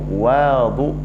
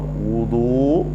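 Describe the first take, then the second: First: The first vowel is an 'a' sound. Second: The first vowel is a 'u' sound. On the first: It means the water used for ritual washing. "kalau dibaca dengan fathah waw" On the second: It means the act of ritual washing. "Kalau dibaca dengan dhammah waw"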